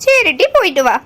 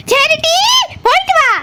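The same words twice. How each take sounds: First: Grudging, subdued goodbye; unsmiling send-off. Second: High, mock-merry goodbye; forced cheerful send-off. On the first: Acted. Mother told to smile at departing daughter, still unsmiling. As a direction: let her go without any cheer. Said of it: "நல்லா சிரிச்ச மூஞ்சியா சொல்லு". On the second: Mother told to say goodbye laughing, forced cheer. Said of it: "சிரிச்சிட்டு சொல்லுன்னு சொல்றான்ல".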